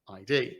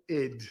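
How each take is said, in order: First: It is said as two separate letter names. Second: It is said as one short word. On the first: The speaker calls it wrong. "two separate letters" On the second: The speaker calls it right. "as an ego"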